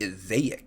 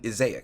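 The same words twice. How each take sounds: First: The line is said with an added stylish flourish. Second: The line is said plainly, without added flourish.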